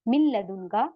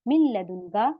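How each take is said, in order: Both takes have the same delivery.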